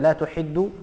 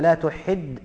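First: The verb ends with a u vowel. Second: The verb does not end with a u vowel. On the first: It states that something does not happen. "إذا قلنا لا تحد فتكون نافية" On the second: It forbids someone from doing something. "وإذا قلنا لا تحد أو لا تحدد تكون ناهية"

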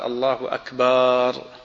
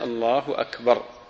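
First: The vowel after the b is drawn out long. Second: The vowel after the b is kept short. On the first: The word comes to mean a drum. The speaker calls it wrong. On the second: The word means greater. The speaker calls it right.

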